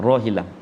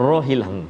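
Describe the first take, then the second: No difference in how they are said.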